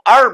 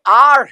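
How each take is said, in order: First: The word has a short, reduced vowel. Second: The word has a full, long vowel. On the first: "तो वो अर बोलेगा" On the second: "मान लीजिए आर है"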